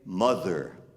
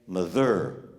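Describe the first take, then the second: First: The stress is on the first syllable. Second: The stress is on the second syllable. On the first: The speaker calls it right. "we say mother" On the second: The speaker calls it wrong. "We don't say mother"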